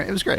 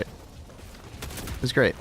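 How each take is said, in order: First: Said in the usual way. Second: Slow, breathy whispered aside; soft whisper. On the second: Real, not acted. Streamer echoes his praise of the birthday e-card in a slow whisper. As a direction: whisper it slowly, drawing out great. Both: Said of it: "repeated in whisper".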